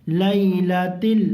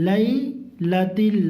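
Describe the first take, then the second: The two takes are said the same way.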